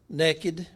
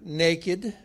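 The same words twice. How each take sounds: First: It is said in a Texan way, like 'nekkid'. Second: It is said in a standard way, like 'nay-kid'. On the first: "in Texan is pronounced naked" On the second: "which is Texan for naked"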